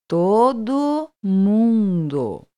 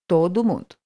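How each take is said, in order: First: It is said slowly, broken into parts. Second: It is said at natural fast speed.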